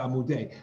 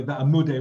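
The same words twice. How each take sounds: First: "V'amudei" stressed on its final syllable; end-stressed "V'amudei"; stress on last syllable. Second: "V'amudei" stressed before its last syllable; early-stressed "V'amudei"; stress moved earlier. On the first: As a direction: put the weight at the end of "V'amudei". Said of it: "rather than V'amudei". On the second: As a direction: pull the weight back in "V'amudei". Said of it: "Same thing, by the way". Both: Shown as a demonstration.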